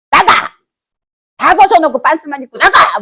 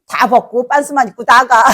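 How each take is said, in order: First: Loud, high acted shout; angry parent. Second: Louder, laugh breaking in at the end; amused retelling. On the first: Parent throwing a disobedient child out, angry shout. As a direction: bellow it like a furious parent. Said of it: "막 이게 화가 나서". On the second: Retold or imitated. Foolish child stripping to leave home, laughing retelling. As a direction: tell it with laughter spilling out.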